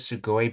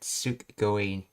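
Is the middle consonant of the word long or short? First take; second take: short; long. First: The middle consonant is short. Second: The middle consonant is doubled and held. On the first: It is the ordinary form of the word. "the word's actually sugoi" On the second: It sounds stronger. "to make it sound stronger, they did a double consonant on it"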